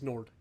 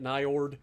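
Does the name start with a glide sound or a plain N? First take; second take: plain N; glide. First: The name starts with a plain N. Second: The name starts with an N plus glide. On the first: The speaker calls it right. "I'm just going to assume the I doesn't exist" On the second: The speaker calls it wrong. "I'm not calling it Niord"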